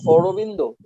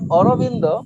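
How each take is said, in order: First: The name is said with rounded 'o' vowels. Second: The name is said with open 'a' vowels.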